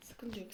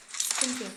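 First: Much softer, barely voiced; whispered reassurance to self. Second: Said in the usual way. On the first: Real, not acted. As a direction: whisper it to yourself. Whispered repeat.

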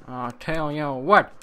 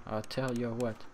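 First: Louder repeat. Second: Quiet lead-in. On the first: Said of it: "repeated louder". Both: Shown as a demonstration.

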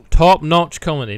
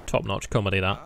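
First: Sarcastic praise. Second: Said in the usual way. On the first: Shown as a demonstration. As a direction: sell "Top-notch comedy" with heavy sarcasm.

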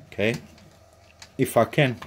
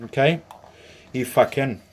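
Both takes have the same delivery.

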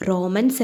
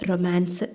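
First: "റൊമാൻസ്" with a long first o and short a, like "റോമൻസ്"; mispronounced word. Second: "റൊമാൻസ്" with short o and long a; corrected pronunciation. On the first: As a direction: say "റൊമാൻസ്" wrongly as "ROH-mans". ("റൊമാൻസ്" എന്നത് "റോമൻസ്" എന്ന് തെറ്റായി) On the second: ("റൊമാൻസ്" എന്ന് മാ നീട്ടി തിരുത്തി) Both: A narrator's reading. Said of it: "അങ്ങനെയാ പറയാ".

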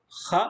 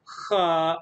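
First: خ as a quick 'kha'; one cut-off beat on خ; short vowel. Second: خا as a held 'khaa'; long vowel. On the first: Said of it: "صوت قصير". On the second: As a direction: draw out the vowel in خا. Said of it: "صوت طويل". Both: Shown as a demonstration.

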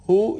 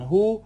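First: «هو» said in two syllables, huwa; تلفظ نادرست «هُوَ». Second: «هو» as one long syllable, hu; تلفظ عراقی «هو». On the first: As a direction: add a final -wa to «هو», as in huwa. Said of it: "هو گفته نمیشه دوستان". («هو» با تلفظ دوهجایی هُوَ) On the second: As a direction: say «هو» as hu, no -wa ending. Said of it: "به این صورت". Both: Shown as a demonstration.

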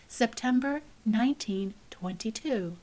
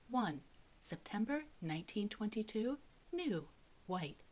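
First: Said in the usual way. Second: Softer, measured reading of each entry; hushed list reading. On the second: A narrator's reading. Narrator reading the book's chart entries, hushed. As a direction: quietly tick through the record.

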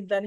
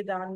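First: दन with a short a; दन said with a brief, unstretched a; short vowel. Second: दान with a long aa; दान said with an open, held aa; long vowel. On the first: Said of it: "short अ का sound आ रहा है". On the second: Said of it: "दन है, दान नहीं है". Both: Shown as a demonstration.

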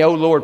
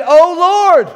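First: Said in the usual way. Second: Loud, high cry of "Oh Lord"; "Oh Lord" cried out in desperation; desperate cry. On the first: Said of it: "How many "Oh Lord" prayers". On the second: Acted. Desperate prayer acted out.

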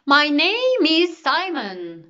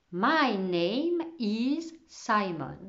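First: Loud, high, stretched-out proclamation; exclaimed introduction. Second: Slow, measured reading of written words; spelled-out writing. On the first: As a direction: announce yourself grandly, slowly, at full voice. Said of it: "s'exclama-t-il". (présentation claironnée, lente et forte) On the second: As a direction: say it word by word as if writing. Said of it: "il écrivit une phrase au tableau". (lecture lente, mot à mot) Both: A narrator's reading.

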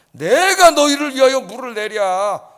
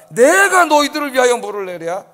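First: Loud, slow, angry outburst at the people; angry shout. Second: Loud proud claim, stressing 내가; angry boast. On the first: Angry slow shout as Moses. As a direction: Moses shouting at the grumbling crowd in anger. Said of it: "소리를 지르더니". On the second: Stress on 내가 as Moses. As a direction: Moses claiming the water as his own, loudly. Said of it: "자기가 화가 나가지고". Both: Retold or imitated.

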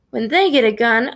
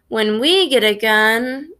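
First: THEY pushed up in disbelief; incredulous question with THEY emphasised; stress on THEY. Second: WE drawn out and lifted in pitch; slow boast with WE emphasised; stress on WE. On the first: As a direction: echo it back, leaning on THEY. Narrator's incredulous echo in thought. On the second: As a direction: lean slowly on WE, leaving it hanging. Boast that breaks off. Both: A narrator's reading.

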